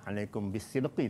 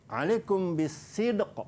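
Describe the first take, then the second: First: The last word ends with an added vowel. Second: The last word ends on a stopped consonant. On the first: The speaker calls it wrong. "kita tak boleh nak baca" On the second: The speaker calls it right. "kita kena matikan"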